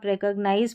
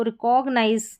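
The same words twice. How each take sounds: First: रिकॉग्नाइज said REK-ug-nize; short "kug" in the middle of रिकॉग्नाइज; correct pronunciation. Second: रिकॉग्नाइज said ri-KOG-nize; mispronounced example. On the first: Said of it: "तो सही pronunciation". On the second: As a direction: open "kog" in the middle of रिकॉग्नाइज. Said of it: "की जगह आप रिकॉग्नाइज पढ़ेंगे". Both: Shown as a demonstration.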